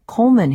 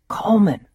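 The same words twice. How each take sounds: First: "Coleman" said with a lightly imitated Austrian accent, pitched higher and louder; a mild Austrian chef calling "Coleman"; thick Austrian accent. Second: A light imitation of a lewd, raspy [name] voice calling "Coleman"; lewd [name] rasp. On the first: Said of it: "he repeated in a thick Austrian accent". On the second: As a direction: drag "Coleman" out in a suggestive mock rasp. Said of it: "in a sort of lewd [name] rasp".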